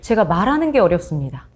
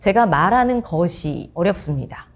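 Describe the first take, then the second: First: The phrase uses the contracted form 'ge'. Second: The phrase uses the full form 'geosi'. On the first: This is how it is spoken. The speaker calls it right. "말을 할 때 구어체로는요" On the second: This is how it is written. The speaker calls it wrong. "우리가 글을 쓸 때는"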